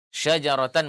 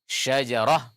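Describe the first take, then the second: First: The word ends with a 'tan' sound. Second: The word ends with an h sound. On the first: The word is read on without stopping. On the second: The reading stops on this word.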